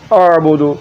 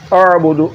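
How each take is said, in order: The two takes are said the same way.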